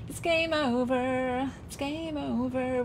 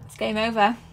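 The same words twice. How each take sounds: First: Slow, stretched wail of defeat; slow, trailing, resigned sing-song; drawn-out lament. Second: Said in the usual way. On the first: Real, not acted. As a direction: draw out GAME and OVER mournfully.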